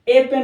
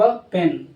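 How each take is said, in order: First: The word 'a' is said with a full vowel. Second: The word 'a' is said with a reduced vowel. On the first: The speaker calls it wrong. "ए pen नहीं बोला जाएगा" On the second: The speaker calls it right. "Flow में बोल दिया गया"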